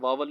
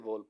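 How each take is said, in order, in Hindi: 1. पहले शब्दांश में खुला 'aa' स्वर है। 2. पहले शब्दांश में 'oh' स्वर है। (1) "इसे वावल नहीं पढ़ते" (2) "इसे वोवल पढ़ते हैं"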